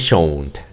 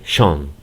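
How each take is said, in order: First: It is said with an American pronunciation. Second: It is said with a British pronunciation. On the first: "El americano lo pronuncia del, como yo lo hice" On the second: "El inglés británico dice shone"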